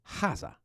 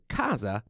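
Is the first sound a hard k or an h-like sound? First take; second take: h-like; hard k. First: It starts with an h-like Tuscan sound. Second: It starts with a hard k sound.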